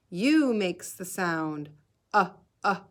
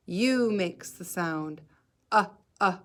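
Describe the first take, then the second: No difference in how they are said.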